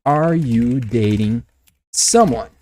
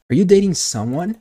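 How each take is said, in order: First: Slow, word by word, pause before "someone"; measured teaching pace, each word separate; slow model question. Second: Said in the usual way. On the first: Shown as a demonstration. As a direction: spell out the question slowly for learners. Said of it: "a pergunta direta, indiscreta, seria". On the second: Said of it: "Manda direto, na cara da pessoa".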